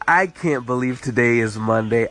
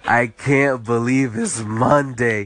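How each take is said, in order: First: It sounds cheerful and excited. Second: It sounds weary and dreading.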